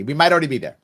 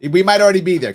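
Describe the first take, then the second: First: Might stressed, rest even and level. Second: Already punched louder and higher; stress on ALREADY. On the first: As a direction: hit the word might, keep already light. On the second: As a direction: lean hard on already, falling after. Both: Shown as a demonstration.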